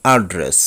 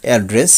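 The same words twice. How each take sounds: First: অ্যাড্রেস said "ard-res"; alternative pronunciation. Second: অ্যাড্রেস said "ed-res"; usual pronunciation. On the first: Teacher giving another correct way, অ্যাড্রেস as "ad-res". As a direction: say অ্যাড্রেস with an "ah" start. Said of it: "আরেকটি সঠিক উচ্চারণ". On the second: Teacher showing the common way, অ্যাড্রেস as "aed-res". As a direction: say অ্যাড্রেস with an "ae" start. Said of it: "আমরা বলি এভাবে". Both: Shown as a demonstration.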